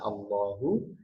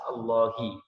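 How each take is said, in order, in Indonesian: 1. Kata ini diakhiri vokal u. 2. Kata ini diakhiri vokal i. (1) "harokatnya dhammah" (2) "bisa berubah menjadi kasrah, yaitu hi"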